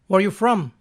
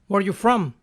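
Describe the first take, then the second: Both takes have the same delivery.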